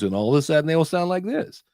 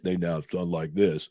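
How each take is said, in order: First: The voice is at normal pitch. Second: The voice is pitched unnaturally deep.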